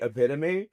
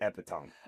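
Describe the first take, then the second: First: The word is said with its usual pronunciation. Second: The word is sounded out just as it's spelled. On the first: This is how the word is meant to be said. The speaker calls it right. "I know to say epitome" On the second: This is how the word looks when read silently. The speaker calls it wrong. "every time I read the word epitome, in my head when I read it, I'm like that says epitome"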